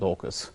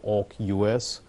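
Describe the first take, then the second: First: It is said as a single word. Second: One syllable, then the last letters spelled. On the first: "let's go with AUKUS" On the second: "or AUK-U S"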